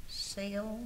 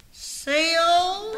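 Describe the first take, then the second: First: Said in the usual way. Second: Loud, drawn-out rising call. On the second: Acted. Woman calling her friend Seal a second time, calling out. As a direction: holler the name upward, impatiently. Calls Seal again, louder.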